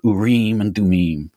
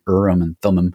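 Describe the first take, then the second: First: The name is said with a non-English pronunciation. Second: The name is said with an English pronunciation. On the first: "it sounds so much cooler, that way" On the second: "English pronunciation"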